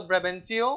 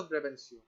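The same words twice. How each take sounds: First: ब्रेबेंचियो with a clear "chee-o" ending; pronounced with CH. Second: ब्रेबेंशियो with a soft "see-o" or "shee-o" ending; pronounced with S/SH. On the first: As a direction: say ब्रेबेंचियो with a hard "ch" sound. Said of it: "या कुछ लोग बोलते हैं". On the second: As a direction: say ब्रेबेंशियो with a hissed s/sh instead of "ch". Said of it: "ब्रेबेंशियो भी कह सकते हैं". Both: Shown as a demonstration.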